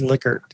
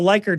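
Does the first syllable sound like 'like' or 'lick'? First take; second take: lick; like. First: The first syllable sounds like 'lick'. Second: The first syllable sounds like 'like'. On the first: This is how the family said their name. "the real pronunciation is Lickert" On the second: This is the common way people say the name. "I still call it the Likert scale"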